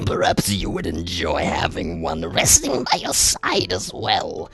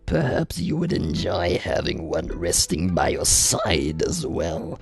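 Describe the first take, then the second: First: The line is delivered in a mild, less menacing tone. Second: The line is delivered in a darker, more menacing tone.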